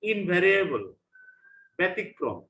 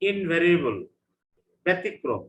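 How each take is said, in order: Both takes have the same delivery.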